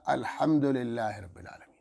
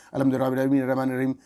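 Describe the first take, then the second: First: "الحمد للہ رب العالمین" with every letter clearly articulated; careful recitation. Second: Hurried, swallowed Arabic recitation; rushed recitation. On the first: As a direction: say "الحمد" fully, each sound distinct. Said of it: "الحمد نہیں ہوتا". (صاف صاف الفاظ میں تلاوت) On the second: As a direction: gabble the verse carelessly. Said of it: "اس طرح بھائی، الحمد نہیں ہوتا". (جلدی جلدی بے پروائی سے پڑھنا) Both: Shown as a demonstration.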